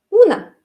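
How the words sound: The final vowel is reduced, N near teeth. "la O no es una O, porque no tiene acento, es una"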